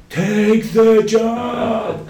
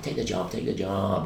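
First: High, drawn-out mock bellow; huge stretched-out holler; shouting in capitals. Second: Said in the usual way. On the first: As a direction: yell it slowly like an all-caps email. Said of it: "in big letters". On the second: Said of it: "every goddamn day, he's like".

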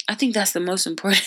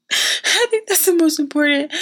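First: Said in the usual way. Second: High, amused put-on repeat; high silly voice. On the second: Real, not acted. Speaker joking that food words matter most, high playful voice. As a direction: say it pitched way up, tickled by yourself. Laughing repeat of her own remark.

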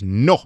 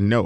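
First: No punched louder, with a kick; Spanish no with a kick. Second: Said in the usual way. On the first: Shown as a demonstration. Teaching listeners to refuse purchases, a punchy Spanish no. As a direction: hit the no hard, like in Spanish. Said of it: "when you say it in Spanish". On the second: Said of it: "Now you hear it, no".

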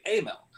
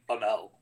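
First: Amel with a long, stressed A, 'AY-mel'; pronounced AY-mel. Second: Amel with a weak first vowel, 'uh-MEL'; wrong pronunciation, uh-MEL. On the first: Showing co-hosts the accepted form, Amel as AY-mel. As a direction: start Amel on the letter name A. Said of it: "We say Amel". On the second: Showing co-hosts what nobody says, Amel as uh-MEL. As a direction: reduce the A of Amel to 'uh'. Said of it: "we don't say Amel". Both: Shown as a demonstration.

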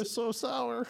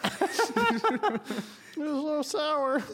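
First: Laughing. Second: Very slow, high laughing drawl. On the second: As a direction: stretch it out through laughter. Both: Real, not acted.

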